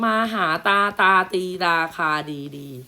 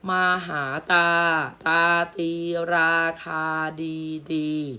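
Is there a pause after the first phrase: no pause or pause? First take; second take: no pause; pause. First: It is read straight through without a pause. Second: There is a short pause after the first phrase. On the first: The speaker calls it wrong. "ถ้าเว้นวรรคไม่ถูกจะอ่านอย่างนี้" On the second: The speaker calls it right. "แล้วเว้นพักไปแป๊บหนึ่งเรียกว่าการเว้นวรรค"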